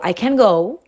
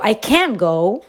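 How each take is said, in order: First: The stress falls on the word go. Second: The stress falls on the word can.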